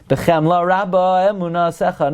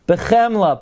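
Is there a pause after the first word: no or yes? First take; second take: no; yes. First: The words run together without a pause. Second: There is a pause after the first word. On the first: The speaker calls it wrong. "not like they taught you in kindergarten" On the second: The speaker calls it right.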